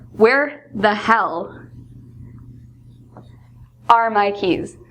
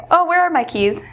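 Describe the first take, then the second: First: Slow, drawn-out exasperated "Where the hell"; stressed out. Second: Said in the usual way. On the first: Shown as a demonstration. Late for work, teacher acts out losing keys, slow exasperation. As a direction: drag it out, fed up with searching. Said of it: "very stressed out". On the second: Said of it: "instead of just saying".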